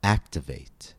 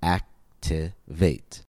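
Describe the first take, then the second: First: Activate said whole, stress on AC; stress on first syllable. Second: Activate slowly split, ac-ti-vate; slow count-out of Activate, a pause after each syllable. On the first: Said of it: "it falls on the first syllable". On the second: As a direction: break Activate into three separate syllables. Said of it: "activate has three syllables". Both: Shown as a demonstration.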